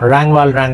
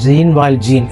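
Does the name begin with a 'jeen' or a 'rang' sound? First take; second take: rang; jeen. First: The name begins with a 'rang' sound. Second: The name begins with a 'jeen' sound. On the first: This is the proper French form of the name. The speaker calls it right. "അതിൻ്റെ ശരിയായ ഉച്ചാരണം" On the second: This is the older school form of the name. The speaker calls it wrong. "അന്ന് ഇദ്ദേഹത്തിന്റെ പേര് ജീൻ വാൽ ജീൻ എന്നാണ് പറഞ്ഞത്"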